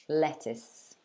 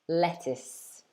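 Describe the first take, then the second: The two takes are said the same way.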